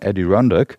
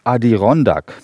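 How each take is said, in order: First: The name is pronounced with English sounds. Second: The name is pronounced with German sounds. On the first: "Man könnte auch sagen" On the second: "ich spreche die mal auf Deutsch aus"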